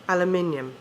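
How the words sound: It is said with a British pronunciation. The speaker calls it right. "In England, we say aluminium"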